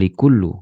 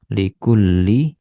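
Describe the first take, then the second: First: The word ends with an 'oo' vowel. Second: The word ends with an 'ee' vowel. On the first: The speaker calls it wrong. "bukan likullu gitu ya" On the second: The speaker calls it right. "Likulli, bukan likullu"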